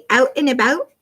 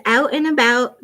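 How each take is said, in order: First: "Out and about" in a Canadian accent; playful Canadian-accented "Out and about", questioning lift at the end. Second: Said in the usual way. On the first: Shown as a demonstration. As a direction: put Canadian vowels on "Out and about". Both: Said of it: "but say it with the Canadian accent".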